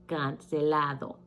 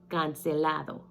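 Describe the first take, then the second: Both takes have the same delivery.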